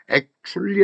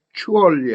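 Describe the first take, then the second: First: "액츄리" shortened to three syllables with CH; reduced CH form. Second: "액츄얼리" with every syllable sounded, CH in the middle; full form. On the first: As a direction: swallow the "얼" in "액츄리". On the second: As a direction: give "액츄얼리" four clear syllables. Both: Shown as a demonstration. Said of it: "할 때 다르고".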